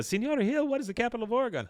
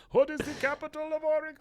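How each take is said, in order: First: Put-on high, fast little-kid question; kid's voice. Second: Very high, fast hammed-up yell; falling yell. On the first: Kid trying to get teacher's attention, high child voice. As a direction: pipe up like a schoolchild. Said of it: "one of the kids". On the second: Eduardo shouts while falling off cliff, absurd high yell. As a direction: shriek it as if plummeting. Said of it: "As he's falling".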